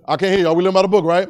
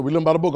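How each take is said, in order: First: Louder, prompting preacher; rallying call. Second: Said in the usual way. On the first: Real, not acted. Preacher prods a congregation he can't hear, rallying call.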